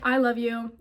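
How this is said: It is said flatly, like a robot.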